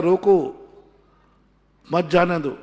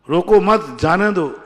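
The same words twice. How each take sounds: First: "रोको", a long pause, then "मत जाने दो" together; "रोको" के बाद विराम. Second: Loud "रोको मत" as one, then a loud falling "जाने दो"; "मत" के बाद विराम. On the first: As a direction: stop hard after "रोको", then run "मत जाने दो" as one. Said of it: "दूसरा कहता है". ("रोको" के बाद लंबा ठहराव, फिर "मत जाने दो") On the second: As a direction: join "रोको मत" firmly, break before "जाने दो". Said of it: "मत के बाद लगा देगा". ("रोको मत" ज़ोर से साथ, फिर "जाने दो") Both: Shown as a demonstration.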